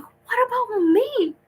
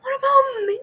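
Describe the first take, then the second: First: Very high, slow whine of being left out; high drawn-out wounded whine; whiny mock plea. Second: Very high, loud half-sobbed shout; hammed-up crying outburst; mock crying wail. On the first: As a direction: squeak it out like a forgotten kid. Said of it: "and I'm like". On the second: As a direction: wail it like you're about to burst into tears. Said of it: "I'm going to start to cry".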